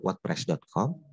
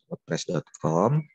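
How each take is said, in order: First: Said in the usual way. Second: Spelled out slowly for beginners; slow and deliberate. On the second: Shown as a demonstration. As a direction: say each part slowly and clearly. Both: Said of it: "Kita pelan-pelan aja".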